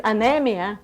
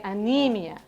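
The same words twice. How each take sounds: First: "anemia" with the middle as a short "neh"; mistaken pronunciation. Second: "anemia" with a long "nee" in the middle; corrected pronunciation. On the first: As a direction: say "anemia" as a-NEM-ia, the wrong way. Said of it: "you might look at it and think it's". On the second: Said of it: "but no, we say". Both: Shown as a demonstration.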